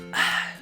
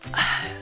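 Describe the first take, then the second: First: It is said in a soft whisper. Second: The same.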